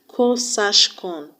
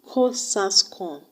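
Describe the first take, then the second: First: The second S sounds like sh. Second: The second S sounds like a plain s. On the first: "to help you remember that the second S is actually shape, S H" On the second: "Pronounce it Cosascon"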